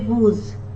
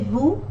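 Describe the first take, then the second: First: The final s is pronounced. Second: The final s is silent. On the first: The speaker calls it wrong. "we don't say vous" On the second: The speaker calls it right. "We say vous"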